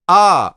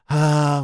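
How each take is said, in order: First: The voice is clear and present without extra air. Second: The voice is breathy with a lot of air. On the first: The speaker calls it right. "If I adduct, the voice is clearer, it's more present" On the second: The speaker calls it wrong. "if we use too much air when we sing"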